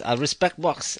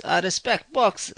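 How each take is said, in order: First: Said in the usual way. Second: "I respect box" said higher and slow, leaning on "box" with a falling tune; slow, high, insistent "I respect box"; emphatic repeat. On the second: Shown as a demonstration. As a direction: drag out "I respect box", landing hard on "box".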